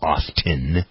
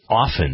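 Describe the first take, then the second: First: The t sound is pronounced. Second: The t sound is silent. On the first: The speaker calls it wrong. "it isn't often" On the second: The speaker calls it right. "it's often. The T is silent"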